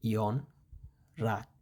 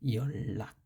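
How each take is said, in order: First: The middle is an n followed by r. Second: The middle is a long double l sound. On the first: The speaker calls it wrong. "হওয়ার কথা ছিল ইয়ন রাক" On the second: The speaker calls it right. "কিন্তু এটা উচ্চারণ হবে ইয়ল্লাক"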